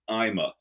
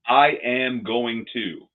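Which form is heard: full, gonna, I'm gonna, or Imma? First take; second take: Imma; full. First: Everything is squeezed into two short syllables. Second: Every word is said fully and separately.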